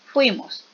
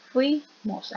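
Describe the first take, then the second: First: Said in the usual way. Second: "Fuimos" broken as fui, then mos; split into syllables. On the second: Shown as a demonstration. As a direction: say "Fuimos" in two separate syllables. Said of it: "aquí es". ("Fuimos" separado en sílabas: fui, mos)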